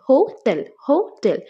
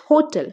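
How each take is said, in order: First: hotel split as হো - টেল; syllable by syllable. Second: Said in the usual way. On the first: Shown as a demonstration. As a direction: say hotel in two separate beats. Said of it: "কয়টা? দুইটা রয়েছে". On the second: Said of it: "কয়টা".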